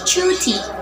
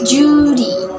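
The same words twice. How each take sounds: First: It is said in a British accent. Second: It is said in an Australian accent. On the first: "In British accents" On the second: "In Australian accents"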